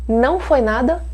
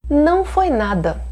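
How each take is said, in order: No difference in how they are said.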